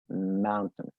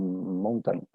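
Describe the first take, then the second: First: The second syllable is reduced, almost gone. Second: The second syllable is fully pronounced. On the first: The speaker calls it right. "La pronunciación correcta es mountain... esa segunda sílaba se reduce" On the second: The speaker calls it wrong. "Muy probablemente la pronuncias como mountain, algo así"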